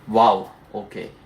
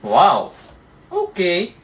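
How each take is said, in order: First: It sounds disappointed and glum. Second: It sounds sarcastic and mocking.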